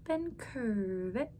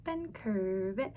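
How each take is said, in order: Both takes have the same delivery.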